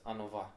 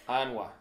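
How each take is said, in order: First: It has an extra helper vowel, Munster style. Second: It is said without a helper vowel, Connemara style.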